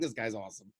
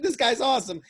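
First: Low and soft "This guy's awesome"; hushed inner praise. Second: Higher, brighter cheer of "awesome"; giddy praise; excited. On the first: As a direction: mutter "This guy's awesome" under the breath. Inner thought repeat. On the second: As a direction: shout the praise out. Excited reaction. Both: Retold or imitated.

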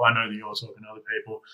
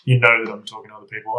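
First: Quick line with weight on "I" and "you're"; brisk, insistent point leaning on "you're"; stress on YOU'RE. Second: Quick line with weight on "You" and "I'm"; brisk, insistent point leaning on "I'm"; stress on I'M. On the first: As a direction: contrast "I" against "you're", briskly. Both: Retold or imitated. Mirrored statements swap you and I.

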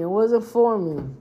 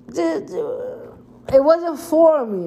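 First: Said in the usual way. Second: Drawn very slowly and higher; dragged out. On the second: Shown as a demonstration. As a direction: stretch each word out dramatically.

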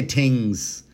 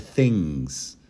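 First: "things" with a hard T, as tings. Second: Said in the usual way. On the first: Shown as a demonstration. Host tests the stenographer with a word, T for TH in "things". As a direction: drop the H, hit a T to start "things". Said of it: "if I say". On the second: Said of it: "instead of".

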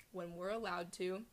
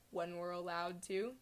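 Both takes have the same delivery.

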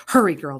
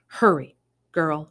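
First: Urgent call. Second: Urgent. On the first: Old woman urging them. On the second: Old woman urging Summer. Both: Acted.

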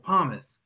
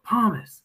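First: "Pommes" said once in a plain ordering tone, stress on the first syllable; just name the food, calmly. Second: "Pommes" repeated higher and louder, impatient, first syllable stressed. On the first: Coach ordering fries at kebab place, calm. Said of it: "And I was like". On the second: Coach repeating order to confused cashier, insistent louder. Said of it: "and I'm like". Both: Retold or imitated.

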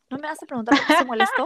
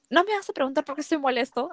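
First: Put-on higher, louder, fast whiny girlfriend voice; mock clingy girlfriend. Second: Said in the usual way. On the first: Teasing the boyfriend by acting him as a whiny girlfriend. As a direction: ham up a needy girlfriend's whine. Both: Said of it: "Así como flaca".

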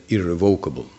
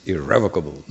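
First: "irrevocable" stressed on VOC, with a long o; "irrevocable" built on the word "revoke"; common devotee pronunciation. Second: "irrevocable" stressed on REV, with a short e; "irrevocable" with the second syllable emphasized; proper stress. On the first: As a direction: say "irrevocable" as ir-re-VOKE-able. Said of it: "frequently devotees, uh, read it". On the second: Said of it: "the stress is irrevocable". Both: Shown as a demonstration.

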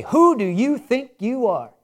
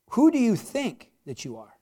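First: Slow, accusing "Who do you think you are?" with WHO hit hard, like a put-down; scornful challenge. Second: An earnest question with WHO said gently, asking for real reflection; sincere searching question. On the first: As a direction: throw it at someone as a reproach. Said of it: "Now, I could say". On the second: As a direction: ask "Who do you think that you are?" as a true question, not a challenge. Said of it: "however you put the emphasis on this changes the whole context". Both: Shown as a demonstration.

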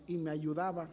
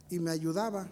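The two takes are said the same way.

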